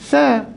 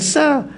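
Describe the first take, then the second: First: The tongue tip touches the teeth for a th-sound. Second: It starts with a plain hissing s sound. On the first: The speaker calls it right. "hujung lidah, hujung gigi" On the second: The speaker calls it wrong. "bukan sa"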